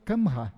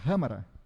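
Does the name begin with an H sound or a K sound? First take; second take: K sound; H sound. First: The name begins with a hard K sound. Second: The name begins with a breathy H sound. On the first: The speaker calls it wrong. "tu vai ler Kamra" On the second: The speaker calls it right. "mas a pronúncia certa é Hamara"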